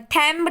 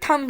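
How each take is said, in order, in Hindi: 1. स्वर 'cat' वाले जैसा लगता है। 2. स्वर 'cup' वाले जैसा लगता है। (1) "थैम्ब नहीं बोल सकते" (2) "यहाँ पे थंब ही आएगा"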